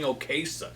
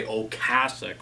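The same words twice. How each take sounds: First: [name] said "oh-KAY-sick"; habitual mispronunciation. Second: [name] said "oh-CASS-ick"; proper pronunciation. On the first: Record reviewer admitting his old habit, [name] as oh-KAY-sick. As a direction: put KAY in the middle of [name]. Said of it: "I'm so used to saying". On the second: Record reviewer reminding himself of the name, [name] as oh-CASS-ick. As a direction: put CASS in the middle of [name]. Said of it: "I gotta remember to say". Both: Shown as a demonstration.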